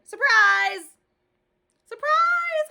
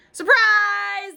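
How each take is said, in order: First: Very high, loud shriek; hollered surprise. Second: High, loud shout; hollered surprise. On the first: Grace shrieking surprise at Junie, very high and loud. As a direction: shriek it with glee. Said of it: "hollered my bestest friend". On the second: Classmates shouting surprise at Junie, high and loud. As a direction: jump out yelling. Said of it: "they hollered". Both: A narrator's reading.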